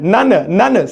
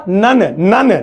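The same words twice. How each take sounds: The two takes are said the same way.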